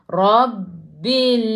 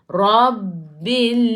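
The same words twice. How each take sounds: The two takes are said the same way.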